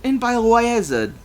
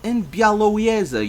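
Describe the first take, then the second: First: "Białowieża" stumbled as "bye-alo-eye-eza"; botched pronunciation. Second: "Białowieża" as "byah-lo-vyeza"; corrected pronunciation. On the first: Reader fumbling a Polish place name, "Białowieża" as "bye-alo-eye-eza". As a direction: say "Białowieża" with a "bye" opening, high and loud. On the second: Reader retrying a Polish place name, "Białowieża" as "byah-lo-vyeza". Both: Real, not acted. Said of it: "I will get it eventually".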